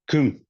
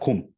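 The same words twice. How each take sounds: First: It is said with a Turkic-style kaf. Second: It is said with a standard Arabic kaf.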